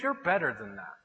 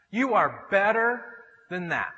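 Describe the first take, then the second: First: Low, soft man-to-man reproof; quiet admonishment. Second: Slow, separated "You are better", with weight on each word; emphatic affirmation. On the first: Church friends correcting a guy, quiet admonishment. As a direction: tell him softly, pitched down. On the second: Church friends urging him on, slow emphatic "You are better". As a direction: draw out "better" to drive it home. Same line repeated emphatically. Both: Retold or imitated.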